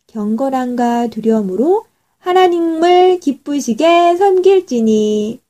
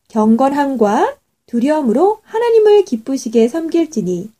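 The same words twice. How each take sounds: First: The start is quiet and the end is loud. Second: The whole sentence is read at one loudness.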